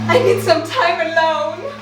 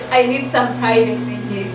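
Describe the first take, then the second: First: It is said in an exaggerated, dramatic way. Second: It is said plainly, without much drama.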